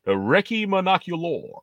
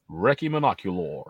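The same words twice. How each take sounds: First: British word Recce in a put-on American accent, slower; an American saying Recce the British way. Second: Recce said REK-ee, slow and firm; British pronunciation. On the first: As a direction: Recce as REK-ee but with American vowels, drawn out. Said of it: "say it the British way, but in an American accent". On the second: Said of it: "say it the British way". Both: Shown as a demonstration.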